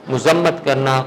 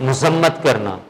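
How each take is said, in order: Both takes have the same delivery.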